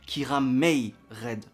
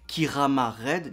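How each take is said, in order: First: The middle syllable is said as 'may'. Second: The middle syllable is said as 'ma'. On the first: This is how the name is actually pronounced. The speaker calls it right. "mais ça se prononce Kiramei Red" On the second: This is how the name is spelled. The speaker calls it wrong. "ça s'écrit Kirama Red"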